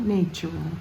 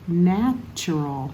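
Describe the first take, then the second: First: The first vowel is a long A. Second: The first vowel is a short A. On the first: The speaker calls it wrong. "not natural" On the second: The speaker calls it right. "the short A sound"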